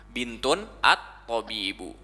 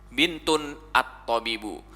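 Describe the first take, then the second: The two takes are said the same way.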